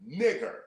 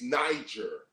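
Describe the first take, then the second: First: The G is hard, like in go. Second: The G is soft, like a J. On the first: The speaker calls it right. "The G is always pronounced hard" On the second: The speaker calls it wrong. "you can't say that the word N I G E R is Niger"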